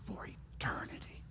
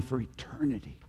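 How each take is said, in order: First: Breathy whispered echo of "For eternity". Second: Said in the usual way. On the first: Acted. Preacher echoing his promise to the congregation, whispered. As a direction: drop to a hushed whisper on "eternity". Preacher repeats closing phrase.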